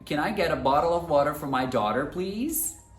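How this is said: It is said in an American accent. "No inglês americano eu falaria"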